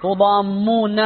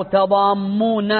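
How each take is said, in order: First: تضامون starting with tu, rounded u on the first letter; with damma. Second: تضامون starting with ta, open a on the first letter, slow; with fatha. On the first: Teacher showing the damma reading, tu at start. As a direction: begin تضامون with tu as tudammun. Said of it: "تقال تو بفتح بالضم". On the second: Teacher showing the fatha reading, ta at start. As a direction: begin تضامون with ta as tadamun. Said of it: "وتقال تاء بالفتح". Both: Shown as a demonstration.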